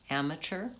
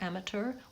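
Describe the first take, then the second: First: The middle consonant is a ch sound. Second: The middle consonant is a clear t sound. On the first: This is the American pronunciation. "we say amateur with a C H sound" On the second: This is the British pronunciation. "I think they say amateur, amateur with a T"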